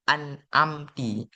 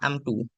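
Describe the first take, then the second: First: The word ends with the vowel i. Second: The word ends with the vowel u. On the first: "ke kasrahkan ta tersebut" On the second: "rumahkan tanyan"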